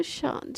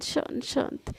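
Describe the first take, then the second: First: Much softer, calming hush. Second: Whispered, soft hush. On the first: Friend calms furious Sana, soft hush. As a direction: soothe her down gently. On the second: Friend calms furious Sana, whispering. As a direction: breathe the words to calm her. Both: Acted. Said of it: "अरे मेरी माँ, शांत".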